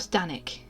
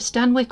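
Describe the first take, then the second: First: The W sound is left out of the name. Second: The W sound is pronounced in the name.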